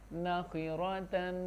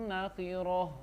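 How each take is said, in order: First: The word ends with a final -tan syllable. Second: The word ends softly without -tan. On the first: The word is read in connected form. "ता दो ज़बर तन" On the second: The reader pauses on the word. "वक्फन"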